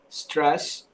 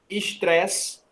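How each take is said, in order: First: The word starts directly with the s sound. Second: An extra e sound comes before the s. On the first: The speaker calls it right. "em vez de apenas stress" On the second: The speaker calls it wrong. "costuma colocar um E antes"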